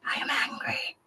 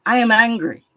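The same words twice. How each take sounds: First: "I am angry" whispered, no voice at all; whispered confession. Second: "I am angry" said loud and firm, stress on "I"; declared out loud. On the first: Admitting her anger to the group, whispered. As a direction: say it under your breath. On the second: Declaring her anger openly to the group, loud. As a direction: let it out at full voice. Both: Real, not acted.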